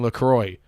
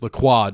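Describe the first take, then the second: First: The name is said with an Americanized pronunciation. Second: The name is said with a French-style pronunciation. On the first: The speaker calls it wrong. "It's not fucking LaCroix" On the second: The speaker calls it right. "It's LaCroix"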